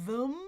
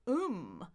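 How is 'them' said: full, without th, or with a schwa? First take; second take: schwa; no th. First: It keeps the th with a weak 'uh' vowel. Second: The th is dropped, leaving only 'um'. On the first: "I can say uh, uh, them" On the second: "Or I can just say uh, uh, um"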